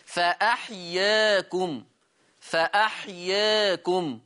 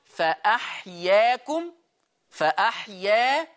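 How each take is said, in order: First: فأحياكم with the a tilted toward e; taqlil. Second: فأحيا with a full open a; full fatha. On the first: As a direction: lean the alif of فأحياكم slightly toward e. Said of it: "أهو الفرق في النطق باين". (فأحياكم بالتقليل) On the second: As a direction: open the mouth fully on فأحيا. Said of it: "أنا فتحت فك فتحة كاملة". (فأحيا بفتح كامل) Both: Shown as a demonstration.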